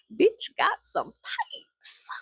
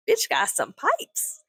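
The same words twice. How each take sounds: First: Very high, raspy, strained and stretched out; drawn-out high rasp, playful; mock screech. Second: High, slow, drawn-out mock admiration; high-pitched, lingering delivery; playful high emphasis. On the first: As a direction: squeeze it into a slow mock screech. Repeats it in the screech voice. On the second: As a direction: stretch it out up high. Admiring the neighbor's scream, playfully.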